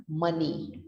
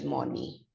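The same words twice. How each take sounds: First: "money" as "MUN-ee", rhyming with sunny; standard pronunciation. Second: "money" with a rounded o, "MON-ee"; wrong spelling pronunciation. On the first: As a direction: say "money" with a short uh. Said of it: "here we pronounce it as money". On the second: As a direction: say "money" as spelt, like "monny". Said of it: "We don't say as money". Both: Shown as a demonstration.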